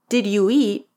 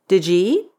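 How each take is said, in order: First: Each word is pronounced fully. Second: The words are partly shortened and linked.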